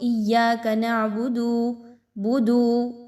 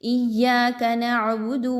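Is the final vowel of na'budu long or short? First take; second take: long; short. First: The final vowel of na'budu is drawn out long. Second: The final vowel of na'budu is kept short. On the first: The speaker calls it wrong. "ऐसा नहीं करना" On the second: The speaker calls it right. "बल्कि इय्याका नअबुदु"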